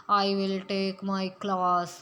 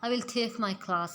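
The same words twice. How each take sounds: First: Slow, flat Punjabi-style English; deliberately poor Punjabi-accented "I will take my class"; bad accent demo. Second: "I will take my class" in careful English style, aspirated t in "take"; slow, careful English-style "I will take my class"; good accent demo. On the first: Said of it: "इस तरह हम बोलते हैं, तो फिर ये एक अच्छा इंप्रेशन नहीं पड़ता". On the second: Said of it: "हमने इसको अच्छे तरीके से बोला". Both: Shown as a demonstration.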